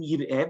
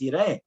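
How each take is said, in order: First: "Yir'eh" read as written, yir-EH; spelled-out reading. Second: "Yir'eh" said as yeh-ra-EH, the passive reading; the traditional reading. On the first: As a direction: say "Yir'eh" with a short i, as the text spells it. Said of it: "It's written". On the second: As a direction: pronounce "Yir'eh" as yera'eh. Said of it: "but it's". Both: Shown as a demonstration.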